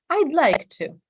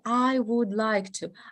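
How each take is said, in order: First: The word would is shortened to I'd. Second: The word would is said in full. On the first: The speaker calls it right. "would is usually short" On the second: The speaker calls it wrong. "we don't say"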